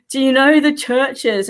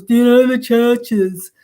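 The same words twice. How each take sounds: First: Said in the usual way. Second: Slow, drawn-out odd caller voice; lightly mocking the caller's strange voice; funny caller voice. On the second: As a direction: mimic the weird phone caller, slowed down. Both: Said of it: "he had this real funny voice".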